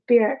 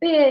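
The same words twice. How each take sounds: First: The final R sound is clearly pronounced. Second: The final R sound is left silent. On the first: "In American English, you'd pronounce this R at the end" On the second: "in British English, you'd say beer"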